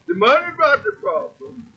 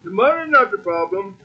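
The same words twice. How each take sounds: First: Said in the usual way. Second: Quicker, with "not" leaned on; stress on not. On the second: Shown as a demonstration. Preacher repeating himself, quicker, stressing "not". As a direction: push through fast and hit "not".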